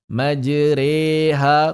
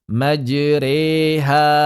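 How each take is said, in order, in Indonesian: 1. Vokal setelah r adalah e seperti tempe. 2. Vokal setelah r adalah e seperti tempe.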